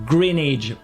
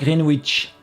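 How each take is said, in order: First: The W is silent. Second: The W is sounded. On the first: The speaker calls it right. "ça se prononce en anglais Greenwich" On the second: The speaker calls it wrong. "pas Greenwich"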